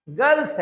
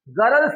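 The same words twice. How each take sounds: First: "गर्ल्स" as one syllable, "gals"; correct pronunciation. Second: "गर्ल्स" stretched to "ga-ral-s"; wrong pronunciation. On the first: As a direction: leave the r silent in "गर्ल्स". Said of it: "क्यों गर्ल्स है?". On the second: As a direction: sound the r in "गर्ल्स" as its own syllable. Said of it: "गर्ल्स नहीं है". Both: Shown as a demonstration.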